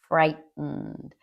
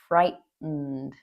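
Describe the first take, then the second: First: The middle t is a glottal stop. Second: The same.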